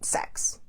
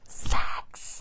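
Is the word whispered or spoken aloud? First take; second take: spoken aloud; whispered. First: The word is spoken aloud. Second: The word is whispered. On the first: The topic is named openly without shame. "Yes, I said it" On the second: The topic is treated as something to be ashamed of. "whispering the word sex"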